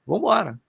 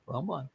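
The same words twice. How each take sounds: First: Said in the usual way. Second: "vambora" dropped to almost nothing; a tired echo of the first "vambora", much softer; weary fading repeat. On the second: Retold or imitated. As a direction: let the second "vambora" sink, much softer and lower. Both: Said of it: "começava".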